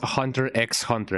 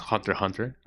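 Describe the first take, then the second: First: The X is spoken aloud between the words. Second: The X is silent between the words. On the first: "I am uh, on the camp that says Hunter X Hunter" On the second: "the correct quote unquote pronunciation is Hunter Hunter"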